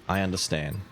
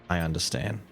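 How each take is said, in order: No difference in how they are said.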